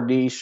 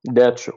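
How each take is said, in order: First: It is said with the British pronunciation. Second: It is said with the American pronunciation.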